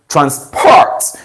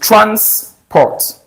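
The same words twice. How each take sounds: First: The stress is on the second syllable. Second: The stress is on the first syllable. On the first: It is a verb meaning to move someone. "So you stress the second syllable" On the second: It is a noun meaning money for travel. "that cash is something, we pronounce it transport"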